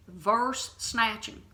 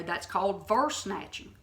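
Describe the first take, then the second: First: Verse snatching drawn out slowly, each word weighted; slow stress on Verse snatching. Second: Said in the usual way. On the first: Shown as a demonstration. Preacher naming the error to listeners, slow weighted stress. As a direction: lean slowly on Verse snatching to name the term.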